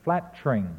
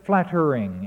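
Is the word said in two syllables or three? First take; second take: Two; Three. First: The word is said as two syllables. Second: The word is said as three syllables. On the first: The speaker calls it right. "It should be reduced through syncopation to flat-ring" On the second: The speaker calls it wrong. "He says flattering in 3 syllables"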